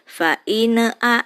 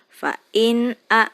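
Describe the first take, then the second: First: The n sound is bounced with an echo. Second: The n sound is short and plain. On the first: The speaker calls it wrong. "nunnya tidak boleh mantul" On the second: The speaker calls it right.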